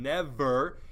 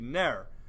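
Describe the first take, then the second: First: The word is said as two syllables. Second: The word is said as one syllable. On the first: "a two-syllable word" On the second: "Now that's one syllable"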